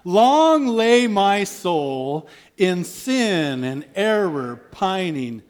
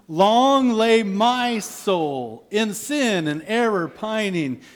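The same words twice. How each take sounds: First: The word my gets no special emphasis. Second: The word my is strongly emphasized.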